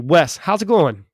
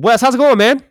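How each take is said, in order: First: It is said with calm, controlled energy. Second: It is said with excessive, hyped energy.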